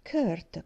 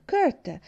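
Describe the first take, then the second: First: Said in the usual way. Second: Much higher and louder Kurt; sharp call. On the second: Acted. Aunt calls Kurt twice. (richiamo secco e forte)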